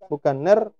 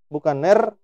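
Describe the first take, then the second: The two takes are said the same way.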